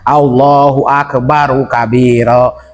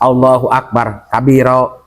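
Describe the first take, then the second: First: Akbar flows into kabira with an added u. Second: Akbar ends abruptly with no linking vowel. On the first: The speaker calls it right. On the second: The speaker calls it wrong.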